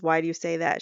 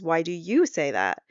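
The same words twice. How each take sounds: First: Said in the usual way. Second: "you" lifted sharply in pitch, then falling; stress on YOU. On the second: Retold or imitated. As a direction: turn the question back by punching "you". Wife turns question back on him.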